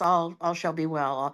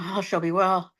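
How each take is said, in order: First: It is said in a grateful, thankful tone. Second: It is said in a pleading, beseeching tone. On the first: The speaker is giving thanks that things are okay. "in a sense of gratitude" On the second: The speaker is asking for reassurance that things will be okay. "You can say it as a prayer of pleading"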